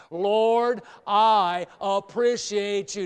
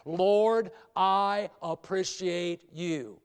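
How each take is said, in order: First: "Lord" called out loud, phrase slow; loud slow prayer phrase. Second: Said in the usual way. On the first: Shown as a demonstration. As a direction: lead the church saying it loud. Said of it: "Let's say it". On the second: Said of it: "a phrase I want you to say with me".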